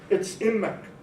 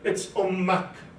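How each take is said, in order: First: It is said in Damascene Arabic with a front first vowel. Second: It is said in Egyptian Arabic with an open second vowel. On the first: "In the Massilian Arabic" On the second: "In Egyptian Arabic"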